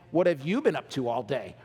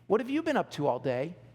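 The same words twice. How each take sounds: First: The question sounds sharp and accusing. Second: The question sounds light and friendly. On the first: The asker implies something was left undone. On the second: The asker is simply curious.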